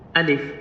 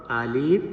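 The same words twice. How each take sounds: First: The word is said short and quick. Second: The word is said slow and drawn out. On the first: The speaker calls it right. "It's very quick" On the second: The speaker calls it wrong. "That's wrong"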